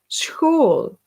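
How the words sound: It begins with a throaty, rasping sound. This is how it is said in Belgium. "When we say school, we say school"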